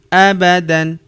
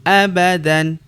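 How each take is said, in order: Both takes have the same delivery.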